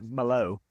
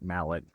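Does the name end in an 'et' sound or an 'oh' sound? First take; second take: oh sound; et sound. First: The name ends in an open 'oh' sound. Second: The name ends in an 'et' sound.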